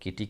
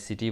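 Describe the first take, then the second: First: The word begins with a K sound. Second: The word begins with an S sound. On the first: The speaker calls it wrong. "इसको किटी क्यों नहीं बोलते हैं?" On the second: The speaker calls it right. "सिटी बोल देते हैं"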